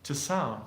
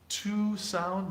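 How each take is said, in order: First: The word 'to' is short and reduced. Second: The word 'to' has a full, clear vowel. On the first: The speaker calls it right. "we don't ever uh, pronounce those words like we would pronounce them by themselves" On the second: The speaker calls it wrong. "Here I don't say if it's possible to sound. ... no"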